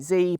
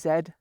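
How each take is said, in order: First: The letter is said the American way, 'zee'. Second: The letter is said the Canadian way, 'zed'.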